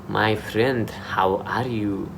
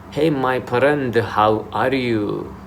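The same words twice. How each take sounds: First: Lightly imitated Indian-accented greeting. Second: Put-on slow, drawn-out Arabic-accented greeting. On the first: Showing how Indians greet you in Dubai, Indian accent. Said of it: "Indians will say". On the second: Showing how Arabic people greet you in Dubai, Arabic accent. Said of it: "Arabic people will come to you and say".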